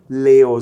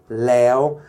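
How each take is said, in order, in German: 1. Es klingt wie der Biername Leo. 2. Es klingt wie das thailändische Vergangenheitswort. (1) "Leo ist ein Bier, was hier in Thailand verkauft wird. Ja? Also bitte kein Leo" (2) "sondern Leo"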